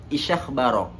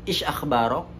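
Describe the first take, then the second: Both takes have the same delivery.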